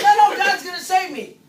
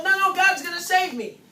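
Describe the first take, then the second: First: Very loud, high mock refusal, escalated; mock refusal yelled even louder; more stubborn refusal. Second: Loud, higher mock refusal, first time; a flood victim waving off the boat; mock stubborn no, no. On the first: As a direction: dig in harder on the second no. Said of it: "And the next boat comes in and says". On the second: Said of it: "and the boat comes in and say".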